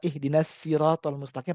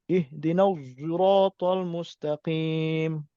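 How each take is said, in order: First: The s in sirat is plain and thin. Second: The s in sirat has rounded, pushed-out lips. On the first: "pakai sin" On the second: "dengan ismam, mulutnya monyong gitu"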